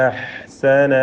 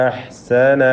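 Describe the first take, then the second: The two takes are said the same way.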